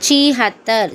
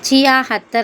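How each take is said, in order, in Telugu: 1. ఈ పదం ఒకే అక్షరమైన 'chee' తో మొదలవుతుంది. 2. ఈ పదం రెండు అక్షరాల 'chiya' తో మొదలవుతుంది.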